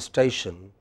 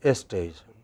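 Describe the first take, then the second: First: The word begins directly with the s sound. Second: An extra e vowel comes before the s. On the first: "we don't say station" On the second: "we say station, We add an extra e"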